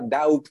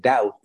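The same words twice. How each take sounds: First: The word is said with a B sound. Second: The word is said without a B sound. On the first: The speaker calls it wrong. "sonaría doubt" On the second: The speaker calls it right. "en lugar de doubt"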